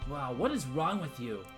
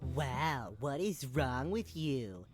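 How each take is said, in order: First: It is said in a normal voice. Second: It is said in a nasal voice.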